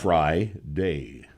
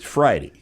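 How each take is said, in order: First: The last syllable ends in a 'day' sound. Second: The last syllable ends in a 'dee' sound. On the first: "Add fry to the front. Of that" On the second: "That sounds stupid. It's Friday"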